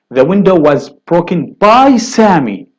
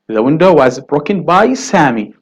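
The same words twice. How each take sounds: First: By leaned on and loud; stress on by. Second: Said in the usual way. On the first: Shown as a demonstration. Teacher stressing by to show the doer. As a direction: push the word by so the doer stands out. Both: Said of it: "you would say, for example".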